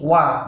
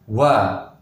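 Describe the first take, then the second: First: The sound is plain, without a puff of air. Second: The sound is said with a puff of air. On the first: The speaker calls it right. "ini wa" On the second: The speaker calls it wrong. "bukan wa"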